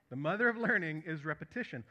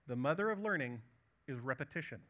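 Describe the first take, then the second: First: The mother of learning is repetition said again, firmer and louder, leaning on "mother of learning"; repeated for emphasis. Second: Said in the usual way. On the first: Shown as a demonstration. Preacher repeats a saying to his church, firmer and louder. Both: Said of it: "I should repeat that just to make it an emphasis".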